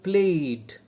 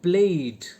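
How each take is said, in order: Both takes have the same delivery.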